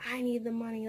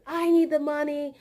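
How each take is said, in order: First: Said in the usual way. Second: High, loud, pushy retelling of her; imitating her louder and higher; mock loud demand. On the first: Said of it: "she said". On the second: Coworker demanding her pay, imitated loud and high. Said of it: "she just said".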